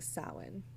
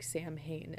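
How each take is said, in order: First: The word is sounded unlike its spelling. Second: The word is sounded out as it is spelled. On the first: The speaker calls it right. "its etymology and the origin of the word is it's pronounced Samhain" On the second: The speaker calls it wrong. "It's it's literally spelled like Samhain"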